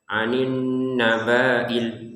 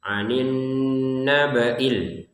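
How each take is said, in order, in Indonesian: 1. Vokal setelah b dibaca panjang. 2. Vokal setelah b dibaca pendek. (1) "membacanya panjang" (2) "agar ini pendek ya"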